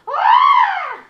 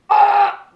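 First: It is a high, scared woman's scream. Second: It is a deep, loud man's scream.

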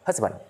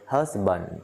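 First: The word is said quickly. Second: The word is said slowly. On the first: "Rất là nhanh các bạn" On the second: "tôi dạy các bạn từ từ thôi"

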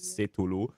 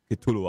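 First: The name starts without a K sound. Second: The name starts with a K sound. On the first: The speaker calls it wrong. "und nicht Cthulhu" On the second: The speaker calls it right. "Chat hat gesagt bei mir mit K"

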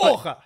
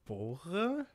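First: It is said in an angry way. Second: It is said in an admiring way.

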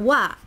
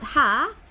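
First: It begins with a w sound. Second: It begins with an h sound. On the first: The speaker calls it right. "but wa" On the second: The speaker calls it wrong. "as a subject particle, it is not ha"

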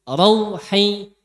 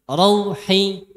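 No difference in how they are said.

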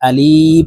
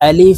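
First: The word is stretched out slowly. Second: The word is said short and quick. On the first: The speaker calls it wrong. "আমরা অনেকে এই আলিফ হরফ টেনে উচ্চারণ করে থাকি" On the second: The speaker calls it right. "তাড়াতাড়ি করে উচ্চারণ করব"

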